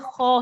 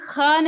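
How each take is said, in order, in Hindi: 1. kh ध्वनि भारी और गोल है। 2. kh ध्वनि हल्की और पतली है। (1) "ये खौ है" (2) "ये ख नहीं है"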